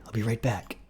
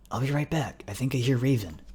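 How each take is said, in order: First: Whispered reassurance before slipping away; under the breath, secretive; hushed whisper. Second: Higher-pitched, voiced repeat; raised pitch, explaining himself; insistent repeat. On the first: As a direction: whisper it quickly to a companion. Carl sneaks off, urging quiet. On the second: Repeats himself after startled question. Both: A narrator's reading.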